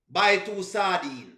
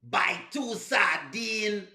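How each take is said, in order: First: Said in the usual way. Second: Very slow, over-separated fake Jamaican "two sardine"; imitating a bad Jamaican accent, stretching "sardine"; mock Jamaican accent. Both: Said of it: "See, it's different".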